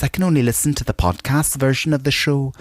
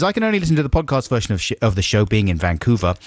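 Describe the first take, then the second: First: Mock Mark Cousins voice. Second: Said in the usual way. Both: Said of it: "No, I'm not gonna do an accent".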